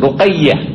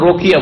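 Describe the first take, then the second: First: The name has a doubled y sound. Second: The name has no doubled y sound. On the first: The speaker calls it right. "তাসদীদ আছে" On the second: The speaker calls it wrong. "রোকিয়া কোন নাম নেই"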